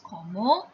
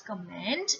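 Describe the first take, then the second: First: "comma" with open final vowel, no N or T; French pronunciation. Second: "comment" said the English way, N and T sounded; wrong English reading. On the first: Teacher correcting the first word, "comma" the French way. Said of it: "it is comma". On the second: Teacher showing the mistake to avoid, "comment" read as English. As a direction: say "comment" as in English, ending -ment. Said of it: "it's not comment". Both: Shown as a demonstration.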